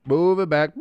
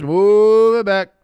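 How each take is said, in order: First: Said in the usual way. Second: Slow, loud, booming referee announcement; mock referee call. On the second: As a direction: draw it out like an official on the field mic. Mock referee ordering the penalty.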